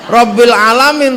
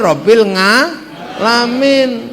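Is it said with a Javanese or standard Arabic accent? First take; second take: standard Arabic; Javanese. First: It is said in standard Arabic pronunciation. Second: It is said with a Javanese accent.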